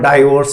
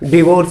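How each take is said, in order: First: The first syllable is said as 'dai'. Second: The first syllable is said as 'di'. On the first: "और डाइवोर्स भी बोल देते हैं" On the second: "हम ना डिवोर्स भी बोल देते हैं"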